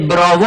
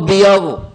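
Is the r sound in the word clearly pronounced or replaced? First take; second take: pronounced; replaced. First: The word is said with a clear r sound. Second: The r sound is replaced by a y-like glide. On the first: This is the word as it was meant to be said. The speaker calls it right. "میخواست بگه براوو" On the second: The speaker could not produce the r sound. The speaker calls it wrong. "میگفت بیاوو"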